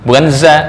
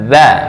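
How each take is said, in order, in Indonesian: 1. Konsonan pertama adalah z bergetar yang biasa. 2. Ujung lidah menyentuh gigi atas. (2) "Ujung ujung lidah dengan gigi atas"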